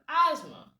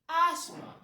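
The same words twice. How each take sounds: First: It is said with an American pronunciation. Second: It is said with a British pronunciation. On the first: "the Americans say the latter" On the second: "the British say the former"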